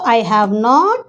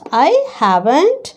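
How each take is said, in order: First: All three words are said in full. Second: Have and not are contracted together.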